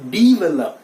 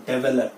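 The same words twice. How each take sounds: First: "develop" loud, opening with DEE; correct pronunciation. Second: "develop" opening with DEH; wrong pronunciation. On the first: Teacher correcting learners, develop with a DEE opening. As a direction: say develop as dee-VEH-lup. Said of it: "वो ई के sound में आएगा". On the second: Teacher rejecting the habit, develop as DEH-vuh-lup. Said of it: "that is not develop". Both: Shown as a demonstration.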